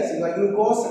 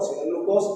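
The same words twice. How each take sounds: First: Said in the usual way. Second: "si no hay glucosa" repeated softer, lingering on "glucosa"; softer repeat for emphasis. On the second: Shown as a demonstration. Teacher repeats the key condition after "ojo", softer. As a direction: say "glucosa" again, softer and pointed.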